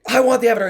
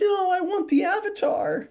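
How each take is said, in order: First: It sounds angry and hot-headed. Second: It sounds whiny and high-pitched.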